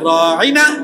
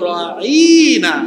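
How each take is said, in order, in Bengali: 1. শব্দটি সহজভাবে, কোনো বিকৃতি ছাড়া বলা হয়েছে। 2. শব্দটি মুখ বাঁকা করে টেনে বলা হয়েছে। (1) "সাহাবীরা বলতেন রাইনা" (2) "ইহুদিরা বলতো রাইনা, একটু মুখকে বাঁকা করে বলতো"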